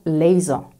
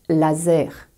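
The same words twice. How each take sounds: First: It is pronounced with English sounds. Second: It is pronounced with French sounds. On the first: "et pas laser" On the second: "je prononce laser"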